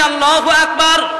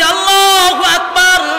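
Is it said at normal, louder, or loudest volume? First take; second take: louder; loudest. First: It is said louder than before. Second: It is said loudest of all.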